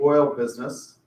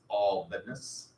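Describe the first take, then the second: First: It is said in a standard accent. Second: It is said in a Texas drawl.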